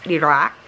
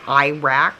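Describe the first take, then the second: First: The first syllable has a short 'i' sound. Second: The first syllable sounds like 'eye'. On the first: The speaker calls it right. "but it's Iraq" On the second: The speaker calls it wrong. "like you say iPhone"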